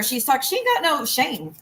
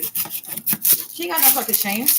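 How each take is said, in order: First: Said in the usual way. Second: Slow, dragged-out contempt on "got"; slow emphatic repeat. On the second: Real, not acted. Ranting streamer repeats the insult, slow and scornful. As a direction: drag it out slowly, disgusted.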